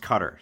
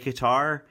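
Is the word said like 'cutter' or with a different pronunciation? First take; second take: cutter; different. First: The word sounds like the English word 'cutter'. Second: The word does not sound like 'cutter'. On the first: This is the modern form, closer to the Arabic. "Cutter is pronounced cutter" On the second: This is an older but still used form. "I don't think it's wrong to say Qatar"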